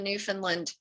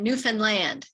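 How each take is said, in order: First: The ending does not rhyme with 'understand'. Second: The ending rhymes with 'understand'. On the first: The speaker calls it wrong. "I don't say that right" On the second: The speaker calls it right. "understand Newfoundland. That's the way I'm supposed to say it"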